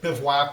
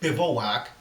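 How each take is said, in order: First: The middle O vowel is left out. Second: The middle O vowel is pronounced. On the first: This is how the speaker has always said it. "without the O" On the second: This is how some other people say it. "some people pronounce it"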